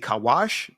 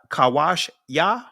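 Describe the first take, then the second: First: The word stops without the final 'ya' syllable. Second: The word ends with an added 'ya' syllable. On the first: "just drop it right there" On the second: "however you want to pronounce it"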